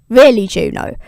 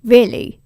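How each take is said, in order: First: "Really" louder with a falling tune; exasperated. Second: Disbelieving. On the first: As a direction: land "Really" hard, falling in disgust. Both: Retold or imitated. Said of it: "super pissed".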